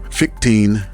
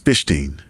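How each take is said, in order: First: The name does not start with 'fish'. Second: The name starts with the word 'fish'. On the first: The speaker calls it wrong. "online I see people pronouncing it" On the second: The speaker calls it right. "I believe the correct pronunciation is"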